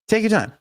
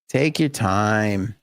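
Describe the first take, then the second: First: It sounds impatient and annoyed. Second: It sounds sincere and relaxed.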